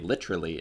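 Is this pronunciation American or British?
British. It is said in an English pronunciation. "in England, they say literally"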